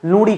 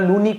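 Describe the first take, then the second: First: The middle consonant is a retroflex flap sound. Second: The middle consonant is a plain n sound. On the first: This is how people say it locally. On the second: This is the usual standard name.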